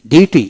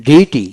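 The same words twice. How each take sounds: The two takes are said the same way.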